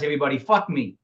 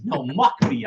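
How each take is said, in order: First: MOCK coming out with an F for the M; accented slip. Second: MOCK said with a clear M; corrected word. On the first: Coach slipping up before the class, M of MOCK turned to F. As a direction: say MOCK so it sounds like the F-word. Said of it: "you hear more most the word F than M". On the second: Coach correcting the slip to the class, MOCK with a clear M. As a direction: correct yourself to MOCK, starting on a firm M. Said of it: "the word F than M".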